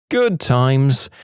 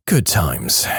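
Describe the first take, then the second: First: Wry reminiscing. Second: Low, falling "Good times"; wry afterthought. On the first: Sarcastic aside after near misses, twice. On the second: Closing the near-death story, a wry low echo. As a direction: drop the pitch as a dry echo. Repeat of the sarcastic aside. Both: Real, not acted.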